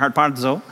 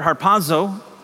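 First: The word is said with a d sound. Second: The word is said without a d sound. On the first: The speaker calls it right. "There's a D in there" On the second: The speaker calls it wrong. "I didn't pronounce that right"

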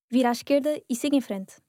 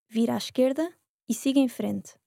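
First: It is said fast. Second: It is said slowly.

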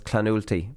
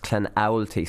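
First: The second syllable does not sound like 'owl'. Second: The second syllable sounds like 'owl'. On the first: The speaker calls it wrong. "So I messed up. I was Clanulty" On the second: The speaker calls it right. "but it's Clanowlty"

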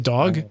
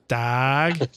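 First: The vowel is a rounded 'o' sound, like dog. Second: The vowel is an open 'a' sound, like dag. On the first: This is how the speaker says it. "I say dog" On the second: This is how other people say it. "Maybe it's they pronounce it dag"

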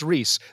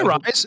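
First: The name is said with an 'ee' vowel. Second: The name is said with an 'eye' vowel. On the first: The speaker calls it right. "it's Reese" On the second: The speaker calls it wrong. "they just think my name is Rise"

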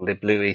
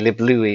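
First: The name ends like the English name Lewis. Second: The name ends like the French name Louis. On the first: The speaker calls it wrong. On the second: The speaker calls it right.

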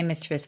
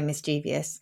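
First: The word has three syllables, ending in -chivus. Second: The word has four syllables, ending in -cheevious. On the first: This is how the adults asked pronounce it. "So both of you say mischievous" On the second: This is how most teenagers pronounce it. "99.9% of them will say mischievous"

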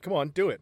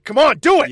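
First: It is said calmly, with low intensity. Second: It is said intensely, with more force.

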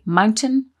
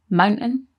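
First: The T in the middle is clearly pronounced. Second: The T in the middle is dropped.

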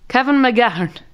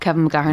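First: It is said in a put-on, dotty character voice. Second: It is said in an ordinary speaking voice.

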